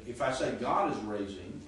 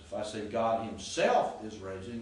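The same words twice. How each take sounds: First: Said in the usual way. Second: Himself lifted and leaned on, rising; stress on himself. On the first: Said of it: "that's not an emphasis". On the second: Shown as a demonstration. Teacher demonstrating Greek emphasis to class, stress on himself. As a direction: lean on the word himself to show emphasis. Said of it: "then I am emphasizing".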